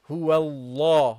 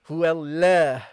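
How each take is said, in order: First: The l sound is thick and heavy. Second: The l sound is thin and light. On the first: The speaker calls it right. "it becomes heavy" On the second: The speaker calls it wrong. "you're not allowed here to pronounce it lightly. So you don't say"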